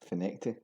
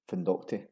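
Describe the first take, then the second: First: It is said with no 'd' after 'Fin'. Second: It is said with a 'd' after 'Fin'. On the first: The speaker calls it right. "It's actually pronounced as" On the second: The speaker calls it wrong. "It's often pronounced as it's written"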